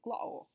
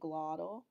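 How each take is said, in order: First: It is said in a Cockney accent. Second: It is said in an American accent. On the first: "And in Cockney, they say" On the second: "In American, we would say"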